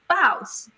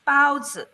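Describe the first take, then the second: First: The first syllable has a sharply falling tone. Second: The first syllable has a high level tone. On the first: It means leopard. "That's the fourth tone" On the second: It means bread dumpling. "That's the first tone"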